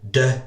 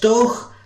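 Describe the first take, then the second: First: It ends in an open 'ay'-like vowel. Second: It ends in a rough throat-clearing 'ch'. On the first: The speaker calls it wrong. "de or doke" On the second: The speaker calls it right. "like clearing your throat when you really hate to"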